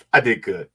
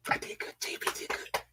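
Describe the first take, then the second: First: Said in the usual way. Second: Hushed, voiceless self-congratulation; soft whispered aside, under the breath. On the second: Real, not acted. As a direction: whisper it to yourself. Repeats self-praise to self, whispered.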